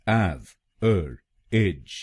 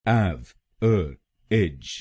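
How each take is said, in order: The two takes are said the same way.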